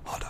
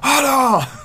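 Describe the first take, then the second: First: It is muttered quietly. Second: It is said suddenly and loudly.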